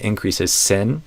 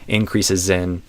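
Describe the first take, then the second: First: The final sound links into 'in' as S. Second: The final sound links into 'in' as Z. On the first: The speaker calls it wrong. "instead of increases sin" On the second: The speaker calls it right. "it's increases zin"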